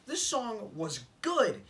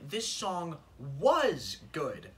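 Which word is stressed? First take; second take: good; was. First: The word 'good' is stressed. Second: The word 'was' is stressed. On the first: The song may still be good now. "If you just says this song was good" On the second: The song is no longer good. "you've completely emphasized the word was"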